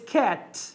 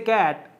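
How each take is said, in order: First: The first k sound is clear and strong. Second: The first k sound is weak and unclear. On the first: The speaker calls it right. "these sounds should be clear" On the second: The speaker calls it wrong. "What do they do? They say"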